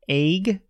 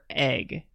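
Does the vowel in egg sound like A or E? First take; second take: A; E. First: The vowel sounds like the letter A. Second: The vowel sounds like the letter E. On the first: "like the A sound" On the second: "or the E sound"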